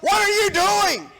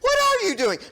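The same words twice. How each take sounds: First: It sounds like a stern, scolding rebuke. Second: It sounds like a curious, innocent question.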